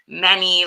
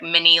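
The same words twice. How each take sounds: First: The first vowel sounds like the one in 'many'. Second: The first vowel sounds like the one in 'mini'. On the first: The speaker calls it right. "but it's many, like much" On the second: The speaker calls it wrong. "it sounds like many, like small"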